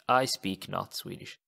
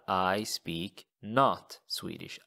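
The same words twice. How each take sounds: First: Said in the usual way. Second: I speak not Swedish, slowly; word-by-word literal translation; slow word-for-word gloss. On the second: Shown as a demonstration. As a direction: spell out the literal order. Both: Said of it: "So jag talar".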